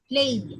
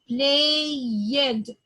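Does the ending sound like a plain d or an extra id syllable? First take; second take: plain d; extra id. First: The ending is a single plain d sound. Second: The ending adds an extra id syllable. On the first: The speaker calls it right. "I'm gonna say it like played" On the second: The speaker calls it wrong. "Some people are making this common mistake"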